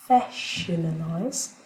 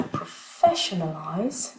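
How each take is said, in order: First: "professionalize" said slowly, stress on "-fes-" just before the ION; slow stress demo. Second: Said in the usual way. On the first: Shown as a demonstration. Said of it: "l'accent primaire va rester, juste avant le I O N". ("professionalize" lentement, accent sur "-fes-") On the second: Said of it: "l'accent primaire va rester".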